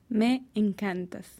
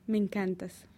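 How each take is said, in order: First: It is said at a normal, unhurried speed. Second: It is said quickly, run together.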